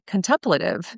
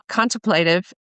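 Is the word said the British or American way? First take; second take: American; British. First: It is said the American way. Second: It is said the British way.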